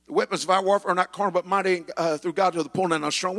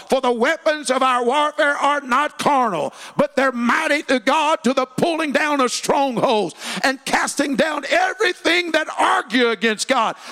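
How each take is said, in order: First: Quick reading. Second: Scripture shouted high and loud; verse proclaimed at full force; preached scripture. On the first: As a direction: rattle off the verse. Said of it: "It says". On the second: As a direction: thunder the verse from the pulpit. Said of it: "Second Corinthians ten and four". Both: Shown as a demonstration.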